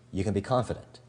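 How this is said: The pitch stays level at the end. The listener can take it or leave it. "Neutral is"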